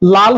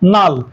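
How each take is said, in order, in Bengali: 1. শব্দটি l ধ্বনি দিয়ে শুরু হয়। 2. শব্দটি n ধ্বনি দিয়ে শুরু হয়। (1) "লাল হয়ে গেল নাল" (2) "এখানে লটা ন হয়ে গেছে"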